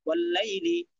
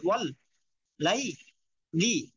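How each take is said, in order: First: Said in the usual way. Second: "wall", "লাই", "লি" each said apart with a clear pause; broken-up syllables. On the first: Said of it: "ভাঙ্গা উচ্চারণটা একটু চালু করে দিলেই". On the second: Shown as a demonstration. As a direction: break it into three separate pieces, "wall ... লাই ... লি". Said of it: "আগে ভাঙ্গা উচ্চারণ করবেন".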